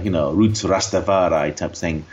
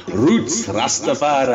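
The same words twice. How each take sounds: First: Put-on slow, drawn-out Yorkshire accent. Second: Slow, put-on Rasta-style voice. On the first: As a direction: slip into a broad Yorkshire accent. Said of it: "Why did I say that in a Yorkshire accent?". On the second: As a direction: drawl it out like a Rastafarian. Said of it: "hang on, what should I do?".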